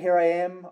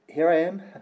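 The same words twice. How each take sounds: First: It is said boldly, with confidence. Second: It is said timidly, without confidence.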